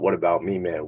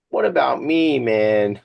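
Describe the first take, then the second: First: Said in the usual way. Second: High, whiny selfish guy; mock a me-first whiner; goofy self-centred voice; funny voice. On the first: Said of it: "Not about". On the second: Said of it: "That's my funny voice".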